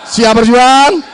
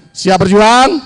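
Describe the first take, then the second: First: Louder rising call to crowd; rally shout. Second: Said in the usual way. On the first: Real, not acted. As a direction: push it harder the second time.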